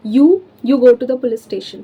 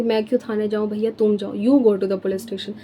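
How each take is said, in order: First: Louder, slow, hitting यू as "you"; emphatic mnemonic. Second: Dismissive retort. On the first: Shown as a demonstration. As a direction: stretch यू out like the word you. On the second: Retold or imitated. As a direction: lightly mimic someone telling another to go themselves. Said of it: "हम ऐसे बोलते हैं ना कि".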